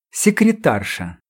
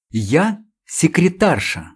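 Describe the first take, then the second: First: Said in the usual way. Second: Drawn out, proudly composed; dignified. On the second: Acted. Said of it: "с достоинством напомнила она".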